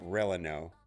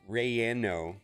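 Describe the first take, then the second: First: The middle consonant sounds like an L. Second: The middle consonant sounds like a Y. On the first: The speaker calls it wrong. "it's not Releno" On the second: The speaker calls it right. "It's Rayano"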